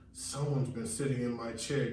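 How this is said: It is grumbled in a low deep voice.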